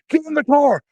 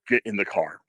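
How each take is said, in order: First: The line is shouted loudly. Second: The line is said in a controlled, unshouted voice. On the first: The threat sounds less believable. The speaker calls it wrong. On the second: The threat sounds more believable and menacing. The speaker calls it right.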